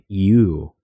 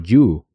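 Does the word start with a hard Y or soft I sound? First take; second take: soft I; hard Y. First: It starts with a soft I-like sound. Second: It starts with a clear, hard Y sound. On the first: The speaker calls it right. "con una I suave" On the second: The speaker calls it wrong. "con un sonido claro de la Y"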